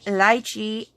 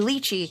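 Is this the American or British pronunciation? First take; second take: British; American. First: It is said the British way. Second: It is said the American way.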